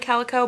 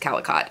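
First: The final t is silent. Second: The final t is pronounced. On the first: The speaker calls it right. "It is silent" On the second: The speaker calls it wrong. "I don't think it's Calicot"

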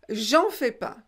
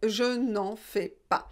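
First: The 'ne' before 'en' is dropped. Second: The 'ne' before 'en' is pronounced. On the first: "à l'oral, quelquefois, eh bien, on ne prononce pas le ne" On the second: "la négation devant le en est une apostrophe"

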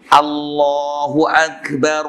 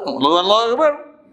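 First: It is said slowly, each word clear. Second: It is said fast, words run together. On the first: The speaker calls it right. "Sebiji, sebiji tu" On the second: The speaker calls it wrong. "Jangan azan, azan macam ribut"

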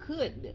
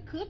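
First: The final d sound is clearly heard. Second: The final d sound is dropped. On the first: The speaker calls it right. "mà là could. Có cái âm đi ở phía sau" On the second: The speaker calls it wrong. "Không phải could"

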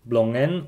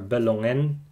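First: The first two consonants are said together. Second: A short vowel separates the first two consonants. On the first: "words with clusters" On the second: "without clusters, but with the letter ø"

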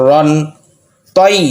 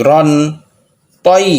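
No difference in how they are said.

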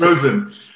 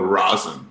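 First: The first vowel sounds like 'rose'. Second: The first vowel sounds like 'raw'. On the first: The speaker calls it right. "It is Rosen" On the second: The speaker calls it wrong. "Most common mispronunciation, people go Rosen, like R-A-W"

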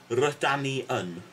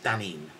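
First: It is said in the longer, full form. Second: It is said in the short, contracted form. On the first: "a shortened version of r-dan-i-un" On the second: "it's just dan-in"

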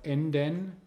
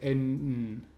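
First: The e in the ending is pronounced. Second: The e in the ending is dropped.

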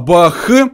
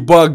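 First: The word ends in a breathy kh sound. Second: The word ends in a hard g sound. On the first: "у нас просто буква Г похожа на букву Х" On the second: "что я говорю не баг"

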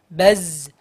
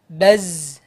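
First: The air is held back with little release. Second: The air is held back with little release.

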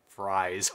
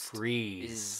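First: The vowel is 'eye', sounding like 'fries'. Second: The vowel is 'ee', sounding like 'freeze'. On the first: The speaker calls it wrong. "I learned this the hard way when I pronounced it as Fries" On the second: The speaker calls it right. "Ed Fries is pronounced... Freeze"

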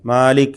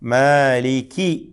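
First: The word ends abruptly on a bare k sound. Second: The word ends with a clear short i vowel. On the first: The speaker calls it wrong. "മാലിക് എന്ന് കാഫിന് സുക്കൂന് കൊടുത്തിട്ട് പെട്ടെന്ന് അങ്ങനെ പറയുക" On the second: The speaker calls it right. "കി എന്ന് വ്യക്തമായി കസ്ർ ഉച്ചരിക്കാതെ"

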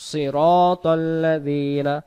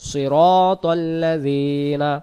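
Both takes have the same delivery.

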